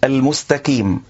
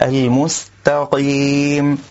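First: The q sound is replaced by a k. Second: The q sound is made extremely heavy. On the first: "إبدال القاف كافا كأن يقول المستقيم" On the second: "يبالغ في تفخيمها جدا"

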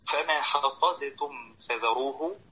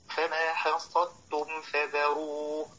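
First: The d is released separately with an echoing bounce. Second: The d merges fully into the following t. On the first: The speaker calls it wrong. "فلو قرأ قارئ بإظهار القلقلة في الدال لكان من اللاحنين" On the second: The speaker calls it right. "والصواب أن يدغم الدال في التاء"

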